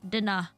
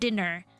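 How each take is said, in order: First: The final r sound is dropped. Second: The final r sound is pronounced. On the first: "I will say dinner" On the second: "American would say let's have dinner"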